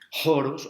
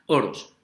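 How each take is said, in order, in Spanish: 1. La palabra empieza con una h aspirada. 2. La palabra empieza directamente con la vocal. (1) "con la otra pronunciación erasmiana que no me gusta" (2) "me quedo con la pronunciación greca"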